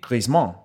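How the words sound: The name is said with a French pronunciation. "in French it would be Griezmann"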